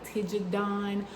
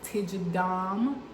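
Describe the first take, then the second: First: The word ends with an N sound. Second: The word ends with an M sound. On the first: "the N and the M, they're interchangeable" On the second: "or also sometimes"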